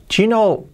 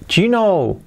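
No difference in how they are said.

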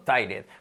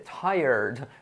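First: It is said with a Spanish-style accent. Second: It is said with a native English accent. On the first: The speaker calls it wrong. "acabamos diciendo tired" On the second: The speaker calls it right. "escuchamos al nativo y no dice tired, dice tired"

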